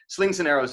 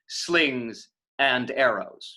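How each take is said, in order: First: The words run together as one phrase. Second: The words are separated by pauses. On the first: The speaker calls it right. "slings and arrows is a phrase" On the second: The speaker calls it wrong. "You could choose to say slings and arrows"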